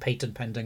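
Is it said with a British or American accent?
British. It is said with a British accent.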